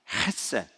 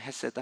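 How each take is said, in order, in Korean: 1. 첫 소리는 거칠고 목에서 나는 소리예요. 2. 첫 소리는 부드럽고 평범한 h예요. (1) "가래 뱉을 듯한 냄, 발음은" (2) "이렇게 그냥 헤세드 합시다"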